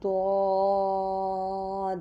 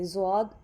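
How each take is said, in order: First: It begins with a d sound. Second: It begins with a z sound. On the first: This is the Arabic way of saying it. The speaker calls it right. "Arabic का लफ्ज़ द्वाद है" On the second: This is the Urdu way of saying it. The speaker calls it wrong. "ज़्वाद उर्दू का लफ्ज़ है"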